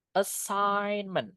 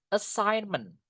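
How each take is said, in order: Both takes have the same delivery.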